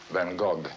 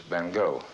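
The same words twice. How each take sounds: First: The name is said the French way. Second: The name is said the English way. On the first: "In France, they call him" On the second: "in the English-speaking countries, he's referred to as"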